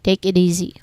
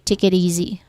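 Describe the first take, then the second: First: The word it ends in a soft d. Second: The same.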